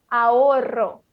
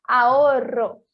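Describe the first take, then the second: First: "ahorro" with a silent H and a trilled RR; "ahorro": skip the H, roll the RR; first model of "ahorro". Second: "ahorro" repeated louder with a strong trill; louder second model of "ahorro"; louder rolled RR. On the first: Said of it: "o R R, que vai ser mais forte". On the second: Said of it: "Mais uma vez". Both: Shown as a demonstration.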